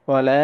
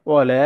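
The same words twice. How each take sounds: The two takes are said the same way.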